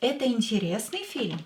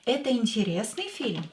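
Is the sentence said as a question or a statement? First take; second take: question; question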